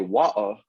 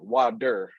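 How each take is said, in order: First: It is said in a British accent. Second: It is said in an American accent. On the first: "British say water" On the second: "the Americans say water"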